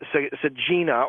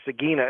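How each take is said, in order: First: It is said in a non-classical Latin pronunciation. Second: It is said in the classical Latin pronunciation. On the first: "I knew the word as Sagina" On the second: "Sagina in the classical pronunciation"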